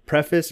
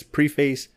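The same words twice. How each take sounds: First: Preface slowly as PREFF-iss; first pronunciation of preface. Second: Preface slowly as PREE-face; second pronunciation of preface. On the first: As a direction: test out preface with a short first vowel. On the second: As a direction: test out preface with long ee, then face. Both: Shown as a demonstration. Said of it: "I can't fucking talk today".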